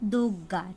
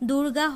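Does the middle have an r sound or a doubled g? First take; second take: doubled g; r sound. First: The g sound is doubled with no r. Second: An r sound comes before the g. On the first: This form is easier to pronounce. "উচ্চারণে সাধারণ সুবিধার জন্য দুর্গা হয়ে গেছে দুগ্গা" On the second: This is the original form of the word. "অপর দিদির নাম আসলে হলো দুর্গা"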